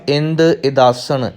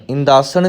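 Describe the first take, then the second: First: ਇੰਦ ਇਦਾਸਣ as two words, "ind idaasan"; split reading. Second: ਇੰਦਾਸਣ run together as one quick "indaasan"; wrong merged word. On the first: Teacher showing the correct reading, ਇੰਦ ਇਦਾਸਣ in two separate words. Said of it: "ਇੱਥੇ ਪਾਠ ਇੰਦ ਇਦਾਸਣ". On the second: Teacher showing what not to say, ਇੰਦਾਸਣ as one word. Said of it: "ਇੰਦਾਸਣ ਵੀ ਨਹੀਂ ਕਹਿਣਾ". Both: Shown as a demonstration.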